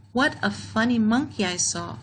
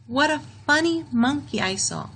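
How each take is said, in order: First: Said in the usual way. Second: Pitched up, a gently amused exclaim; mock delighted exclamation. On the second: Shown as a demonstration. Teacher modelling strong feeling for grade two, mock excited. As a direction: say it like you really saw a funny monkey. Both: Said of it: "An exclamation is a sentence that shows strong feeling".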